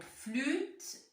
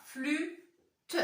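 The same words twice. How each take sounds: First: Said in the usual way. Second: "flûte" as a rising "flû", a pause, then "te"; two-syllable reading. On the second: Shown as a demonstration. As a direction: read "flûte" slowly as two separate syllables. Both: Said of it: "Deux syllabes".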